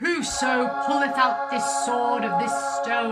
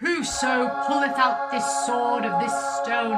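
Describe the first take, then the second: First: It is read in a British accent. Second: It is read in a British accent.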